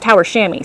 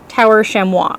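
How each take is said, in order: First: Chamois is pronounced differently from its spelling. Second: Chamois is pronounced closely following its spelling. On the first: Someone else said it this way. "someone else said it's Tower Chamois" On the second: This is how the speaker has been saying it. "I've been saying Tower Chamois because it's C H A M O I S"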